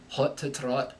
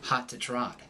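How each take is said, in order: First: It is said in a Scottish accent. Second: It is said in an American accent. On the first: "in the Scottish burr, it's going to change to aw" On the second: "In the American accent, this will sound like"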